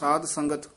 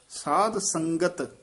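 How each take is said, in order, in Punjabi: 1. ਸ਼ਬਦ ਢਿੱਲੇ ਢੰਗ ਨਾਲ ਬੋਲੇ ਗਏ ਹਨ, ਆਵਾਜ਼ਾਂ ਰਲੀਆਂ-ਮਿਲੀਆਂ ਹਨ। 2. ਸ਼ਬਦ ਸਾਫ਼ ਢੰਗ ਨਾਲ ਬੋਲੇ ਗਏ ਹਨ, ਆਵਾਜ਼ਾਂ ਸਪੱਸ਼ਟ ਹਨ। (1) "ਕਈ ਵਾਰ ਅਸੀਂ ਜਦੋਂ ਢਿੱਲਾ ਜਿਹਾ ਬੋਲਦੇ ਆ ਨਾ" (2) "ਇਸ ਤਰ੍ਹਾਂ ਬੋਲਣਾ"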